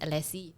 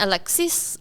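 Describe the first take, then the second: First: The final s sound is dropped. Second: The final s sound is pronounced. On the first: The speaker calls it wrong. "Some people just pronounce it Alexi" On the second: The speaker calls it right. "not everyone can pronounce it properly"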